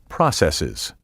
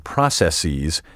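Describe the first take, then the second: First: The last syllable ends like 'iz'. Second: The last syllable ends like 'eez'. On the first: The speaker calls it right. "pronounce the plural processes" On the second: The speaker calls it wrong. "the mispronunciation processes is now often heard"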